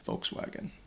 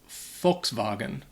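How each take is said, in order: First: It is said with English sounds and an English w. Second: It is said with German sounds, w like v. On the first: "you'd hear that, that W sound in there" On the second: "in German they would pronounce it"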